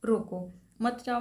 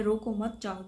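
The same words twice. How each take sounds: First: रोको set apart, then मत जाओ as one phrase; comma after रोको. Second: रोको मत run together, then जाओ apart; comma after मत. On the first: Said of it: "यदि आपने यहाँ पर कॉमा लगाया है". (रोको के बाद अल्पविराम) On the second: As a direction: join मत to रोको, break before जाओ. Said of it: "वही कॉमा यदि आप यहाँ पर". (मत के बाद अल्पविराम) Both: Shown as a demonstration.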